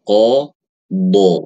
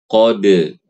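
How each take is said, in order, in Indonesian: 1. Kata ini berakhir dengan vokal 'a' terbuka. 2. Kata ini berakhir dengan vokal 'e'. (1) "itu bacanya qadha" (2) "bukan qade"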